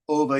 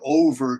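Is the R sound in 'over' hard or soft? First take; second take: soft; hard. First: The R is soft and almost silent. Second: The R is hard and clearly pronounced. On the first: "Over in Australia sounds like ova" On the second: "Americans say worn for over twenty years"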